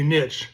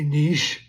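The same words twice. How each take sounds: First: The word is said in a plain English way. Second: The word is said in a French-sounding way. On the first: The speaker calls it right. "I'm gonna say niche" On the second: The speaker calls it wrong. "they're gonna get fancy, like it's from France"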